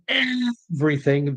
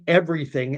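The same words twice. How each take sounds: First: The word is drawn out and lengthened. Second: The word is said at normal length.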